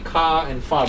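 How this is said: The final R sounds are left silent. "speaking in the British English accent, then you will not read the R's"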